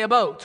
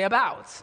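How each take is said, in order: First: The word sounds much like 'a boat'. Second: The word sounds like plain local 'about'. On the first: The speaker is from somewhere else. "You could tell he's not where I'm from because we don't say about" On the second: The speaker is from here. "we say about"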